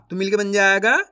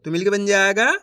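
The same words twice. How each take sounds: The two takes are said the same way.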